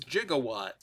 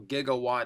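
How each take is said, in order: First: It is pronounced the way the film says it. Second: It is pronounced the standard dictionary way. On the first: It matches the movie this toy is based on. "I'm pronouncing it how they did in Back to the Future" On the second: It is the generally correct pronunciation. "is a more correct pronunciation"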